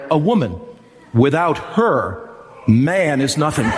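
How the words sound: There are pauses after woman and after her.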